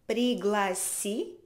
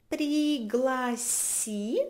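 First: Said in the usual way. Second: Пригласи stretched out slowly, rising at the end; very slow model. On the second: Shown as a demonstration. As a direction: draw out пригласи so each syllable is clear. (пригласи, despacio y con tono ascendente)

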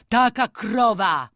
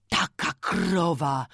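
First: Slow, loud, higher-pitched outcry; heightened cry of dismay; loud lament. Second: Slow, restrained lament for the loss; drawn-out, contained dismay. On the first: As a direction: wail it out louder, drawing out the words. Repeated lament, intensified. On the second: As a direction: draw the words out, only slightly raised. First take of repeated lament. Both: Acted.

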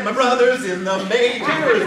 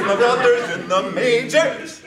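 First: Excited cheer. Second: Louder, laughing through the cheer. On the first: Repeated celebration chant. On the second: Sibling repeating the news, laughing cheer. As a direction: let it tip into laughter. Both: Retold or imitated.

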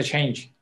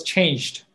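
First: "change" with no final d; "change" ending on the j sound, nothing after; unemphasized ending. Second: "changed" with the final d clearly sounded; "changed" said slowly with its full past-tense ending; emphasized past ending. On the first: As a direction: leave the past-tense d off, just "change". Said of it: "I don't emphasize on that end part". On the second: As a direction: finish "changed" on an audible d. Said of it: "emphasize on that end part". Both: Shown as a demonstration.

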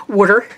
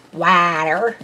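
First: Said in the usual way. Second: "Water" drawn out with an open "ah"; alternate pronunciation. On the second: Shown as a demonstration. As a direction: stretch "Water" slowly into "waah-ter", rising at the end. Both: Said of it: "how you pronounce words".

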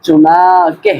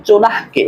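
First: চুনাকে with a long, drawn-out "naa"; correct pronunciation. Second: চুনাহকে with a short, h-closed second syllable; wrong pronunciation. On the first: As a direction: stretch the middle of চুনাকে slowly, then "ke". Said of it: "বরং উচ্চারণ হবে". (চুনাকে, সঠিক উচ্চারণে "না" টেনে) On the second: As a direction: say চুনাহকে with "nah" cut short before "ke". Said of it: "এরকম উচ্চারণ হবে না". (চুনাহকে, ভুল উচ্চারণে "নাহ্" ছোট করে) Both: Shown as a demonstration.

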